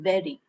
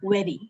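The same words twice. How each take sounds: First: It begins with a v sound. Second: It begins with a w sound. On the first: The speaker calls it right. "it's supposed to be very" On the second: The speaker calls it wrong. "uttering those like were"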